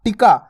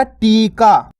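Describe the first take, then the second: First: टिका with a quick, short i. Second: टीका with a held, long ee. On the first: Teacher showing the small vowel sign, टिका with a brief i. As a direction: pass quickly over the i in टिका. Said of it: "छोटी ई की मात्रा का उच्चारण". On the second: Teacher giving learners the intended word, टीका with ee held long. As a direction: stretch the first vowel of टीका. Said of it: "अपन बोल रहे क्या?". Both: Shown as a demonstration.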